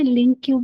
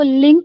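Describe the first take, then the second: First: It is said as two syllables, like link queue. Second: It is said as one syllable, like link. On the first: "लिंक क्यू भी pronounce करते हैं" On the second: "कई लोग इसको लिंक भी pronounce करते हैं"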